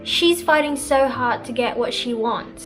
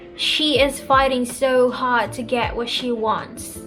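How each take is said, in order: First: 'She is' is contracted to 'she's'. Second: The words 'she is' are said in full. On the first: "when I use contractions" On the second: "when I use contractions and not"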